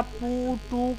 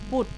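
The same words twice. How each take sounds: First: "পুটু" drawn out as two separate sounds; wrongly split word. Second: "পুট" as one short syllable. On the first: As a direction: break "পুটু" into "পু" and "টু". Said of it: "করে বলি না". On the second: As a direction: say "পুট" in a single push, unbroken. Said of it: "একবারেই উচ্চারণ করে ফেলি". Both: Shown as a demonstration.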